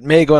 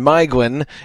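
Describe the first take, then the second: First: The first vowel sounds like 'ay'. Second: The first vowel sounds like 'eye'. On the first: The speaker calls it wrong. "So he says it Maeglin all the way through" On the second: The speaker calls it right. "Maeglin is how you pronounce the name"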